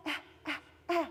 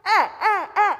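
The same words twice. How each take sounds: First: Soft, timid "Eh, eh, eh"; shy whisper. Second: "Eh, eh, eh" high and loud; loud with microphone. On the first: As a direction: say it like a shy child, softer. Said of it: "They may whisper it". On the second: Shy student turned up through the microphone. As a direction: belt it out into the mic. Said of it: "you turned on their volume". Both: Shown as a demonstration.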